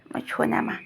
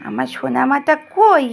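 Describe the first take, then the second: First: Whispering. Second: Said in the usual way. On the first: Real, not acted. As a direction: whisper it tenderly. Whispering to the child.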